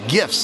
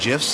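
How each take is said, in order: First: The word starts with a hard G. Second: The word starts with a J sound. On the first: The speaker calls it right. "there's no J" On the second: The speaker calls it wrong. "I was saying GIFs"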